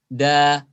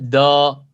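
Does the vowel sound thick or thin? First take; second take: thin; thick. First: The vowel is light and thin, like a. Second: The vowel is heavy and thick, like o. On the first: The speaker calls it right. "Tipis bunyi alifnya" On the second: The speaker calls it wrong. "Tidak boleh do"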